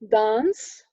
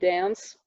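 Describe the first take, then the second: First: The vowel is long and open, like 'father'. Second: The vowel is short and front, like 'cat'. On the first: This is the British RP pronunciation. "the phoneme A as in father before nasals" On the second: This is the General American pronunciation. "there it would be dance"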